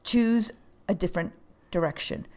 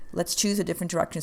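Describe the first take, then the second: First: Said in the usual way. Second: Faster, brisk repeat of choose a different direction; quick restatement. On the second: Shown as a demonstration. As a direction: rattle it off as a rallying line.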